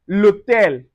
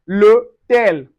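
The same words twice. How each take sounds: No difference in how they are said.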